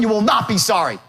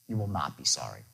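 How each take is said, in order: First: It is said in a pushy, unreasonable tone. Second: It is said in a calm, reasonable tone. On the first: The speaker calls it wrong. "Not like" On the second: The speaker calls it right. "the reasonable man tone"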